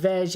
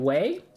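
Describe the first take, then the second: First: The word ends with a hard G sound. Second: The word ends in a vowel glide, like 'way'. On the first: The speaker calls it wrong. "So if I said veg" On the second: The speaker calls it right. "it should be way?"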